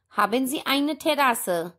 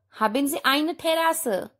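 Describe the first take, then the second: No difference in how they are said.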